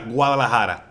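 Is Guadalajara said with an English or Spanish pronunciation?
Spanish. It is said with a Spanish pronunciation. The speaker calls it right. "But it's uh, Guadalajara"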